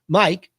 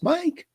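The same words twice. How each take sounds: First: It is said in a plain, serious voice. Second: It is said in a sweet, cartoonish voice. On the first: The speaker calls it right. "I'm serious. This is business" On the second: The speaker calls it wrong. "I certainly don't want to invoke my best Disney voice"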